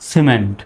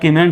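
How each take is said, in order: First: The word begins with an s sound. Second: The word begins with a k sound. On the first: The speaker calls it right. "সির উচ্চারণ কিসের মতো? স্বর মতো হবে।" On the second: The speaker calls it wrong. "এখন আর কিমেন্ট বলা যাবে না"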